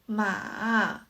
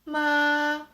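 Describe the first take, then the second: First: The pitch falls first and then rises. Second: The pitch stays level and even. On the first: "The third tone is" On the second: "The first tone is"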